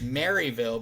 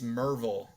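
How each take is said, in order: First: It is said the way outsiders say it. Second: It is said the way locals say it. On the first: The speaker is not from the town. The speaker calls it wrong. "for any outsider, it's Maryville" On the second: The speaker is from the town. The speaker calls it right. "if you're a local, it's Merville"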